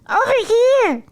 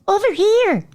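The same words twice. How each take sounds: First: It is said in a high Elmo voice. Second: It is said in a normal speaking voice.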